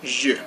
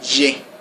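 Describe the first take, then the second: First: The vowel is the French e sound. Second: The vowel is not the French e sound. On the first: It means I. The speaker calls it right. "You have to say je, That e has like that e sound" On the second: It means another thing to French listeners. The speaker calls it wrong. "It's not je"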